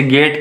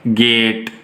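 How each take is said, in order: First: Said in the usual way. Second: "गेट" said slowly, the ए gliding into ई; slow demonstration of "गेट" with a long vowel; drawn-out diphthong. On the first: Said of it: "के अंदर ये sound आ रही है". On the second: Shown as a demonstration. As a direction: stretch the vowel in "गेट" to show the ए-ई glide. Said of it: "जैसे एई sound है".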